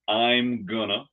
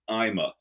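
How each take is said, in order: First: I am is contracted, then gonna follows. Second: Everything is squeezed into two short syllables.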